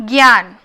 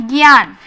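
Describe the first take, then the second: Both takes have the same delivery.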